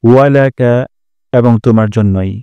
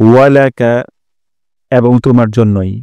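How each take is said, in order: Both takes have the same delivery.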